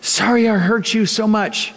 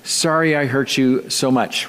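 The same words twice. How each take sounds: First: "Sorry I hurt you so much" said higher, "sorry" lifted; another reading. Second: "Sorry I hurt you so much" read flat and falling, stress on "sorry"; flat text reading. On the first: Pastor showing a second reading of the text: higher. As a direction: read it again in a brighter voice. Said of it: "it could be read this way". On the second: Pastor showing how a text reads: flat and falling. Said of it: "how things can be read on text message". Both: Shown as a demonstration.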